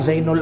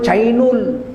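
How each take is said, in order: First: It is said the Indonesian way. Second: It is said the Chinese way. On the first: "Orang Cina mana bisa bilang Zainul Abidin" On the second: "Orang Cina mana bisa bilang Zainul Abidin"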